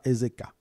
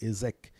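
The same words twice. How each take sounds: First: Ezeka ending on an open A; final A sounded. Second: Ezek ending on the K; no final A. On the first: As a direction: say Ezeka with the A voiced at the end. (Ezeka avec le A final prononcé) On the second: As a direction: say Ezek, stopping at the K without an A. (Ezek sans A final, arrêté sur le K) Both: Shown as a demonstration. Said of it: "parce qu'il n'y a pas de A".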